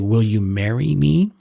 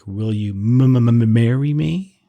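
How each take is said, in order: First: The whole sentence is said fluently. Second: The m sound in marry is repeated.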